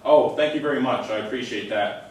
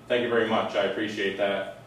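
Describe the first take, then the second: First: It is said with a warm, sincere tone. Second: It is said in a flat, deadpan tone.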